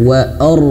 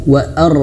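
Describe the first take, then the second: No difference in how they are said.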